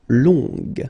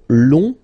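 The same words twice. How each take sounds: First: The word ends with an audible g sound. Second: The word ends without a g sound. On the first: The adjective describes a feminine noun. "long, féminin" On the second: The adjective describes a masculine noun. "long, masculin"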